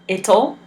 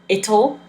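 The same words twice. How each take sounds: First: It is said as one short contracted word. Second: The same.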